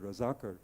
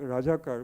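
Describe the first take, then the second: First: The second consonant is a z sound. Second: The second consonant is a j sound.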